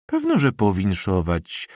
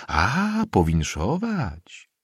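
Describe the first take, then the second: First: Put-on slightly raised, brisker old woman's retort; mildly emphatic "powinszować"; said aloud. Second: High drawn-out "A", then slow "powinszować"; mannered, slow congratulation on command; feigned congratulation. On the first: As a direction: affirm it plainly with a little extra force. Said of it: "rzekła głośno stara przepiórzyca". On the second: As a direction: stretch out a dutiful, put-on congratulation. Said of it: "jak na komendę zwróciły się do niego". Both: A narrator's reading.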